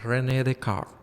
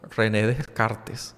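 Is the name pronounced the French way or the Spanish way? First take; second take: French; Spanish. First: The name is said with French pronunciation. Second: The name is said with Spanish pronunciation. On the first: "pero es René Descartes" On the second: "Yo aquí lo he dicho en otros temas del podcast"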